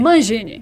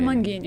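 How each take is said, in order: First: The g is soft, like the s in measure. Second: The g is hard, like the g in go. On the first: The speaker calls it right. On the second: The speaker calls it wrong.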